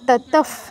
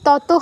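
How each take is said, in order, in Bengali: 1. শেষ ধ্বনিটি f। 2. শেষ ধ্বনিটি h। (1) "ততফ হবে" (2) "এখানে কিন্তু ততহ হবে না"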